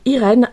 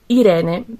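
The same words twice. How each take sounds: First: The name is pronounced the French way. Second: The name is pronounced the Italian way. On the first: This is the adapted name used in France. "je m'appelle Irène à la française" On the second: This is the original name from birth. "mon vrai nom c'est Irène parce que je suis euh, d'origine italienne"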